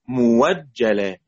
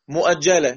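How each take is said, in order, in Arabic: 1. يحل صوت الواو محل الهمزة. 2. تُسمع الهمزة بعد الحركة الأولى. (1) "يبقى نقف عليها مفتوحة قبلها مضموم" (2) "مؤجلة الهمزة مفتوحة وقبلها ميم زائد"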